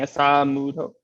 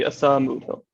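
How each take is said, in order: First: The second syllable gets extra emphasis. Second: The second syllable gets no extra emphasis. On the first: The speaker calls it wrong. "you're exaggerating it just a little bit. You're saying Asamudho" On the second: The speaker calls it right. "so it'd just be Asamudho"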